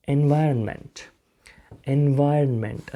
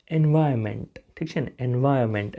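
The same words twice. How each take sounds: First: એન્વાયરનમેન્ટ with a light half "n" before "ment"; only half-sound the ન inside એન્વાયરનમેન્ટ; half-pronounced n. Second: એન્વાયરમેન્ટ as "en-vai-ment", no middle n; n left out. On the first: Teacher shows how the n is said, only half sounded. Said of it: "આ ન જે છે અડધો બોલાશે". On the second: Teacher shows the accepted short form, n left out. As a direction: drop the ન before "ment" in એન્વાયરમેન્ટ. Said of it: "આ ન નહીં બોલો તો પણ ચાલશે". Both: Shown as a demonstration.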